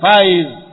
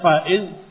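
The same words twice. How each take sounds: First: The vowels run together without a glottal stop. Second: A glottal stop separates the two vowels. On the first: This is the lighter everyday spoken form. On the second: This is how the name is written.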